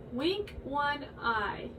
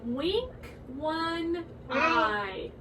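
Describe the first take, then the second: First: Slow spoken demonstration; slow demo. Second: Slow sung line; sung nursery rhyme. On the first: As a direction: spell it out slowly for kids. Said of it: "Like this". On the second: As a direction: sing it softly for the kids. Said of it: "It goes like this". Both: Shown as a demonstration.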